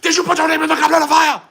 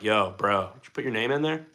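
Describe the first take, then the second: First: It is shouted loudly and intensely. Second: It is said quietly and calmly.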